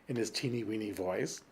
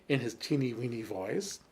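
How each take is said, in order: No difference in how they are said.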